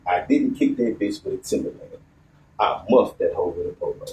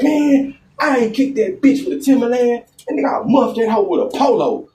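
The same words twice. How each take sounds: First: Softer, near-whispered repeat of the line; quiet retelling. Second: Friend's voice pitched high; quoting his friend. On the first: Storyteller repeating friend's excuse to audience, hushed. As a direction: say it low and hushed. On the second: Storyteller quoting his friend's brazen excuse, higher. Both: Retold or imitated.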